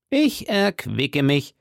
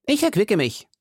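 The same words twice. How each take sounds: First: Drawn-out, deliberate character voice; slow repeat. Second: High put-on voice, brisker take; hearty musketeer. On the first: Acted. Host repeats his excuse, slow and deliberate. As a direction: stretch each word out slowly. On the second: Host excuses his rich meal, high character voice. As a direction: say it high and matter-of-fact.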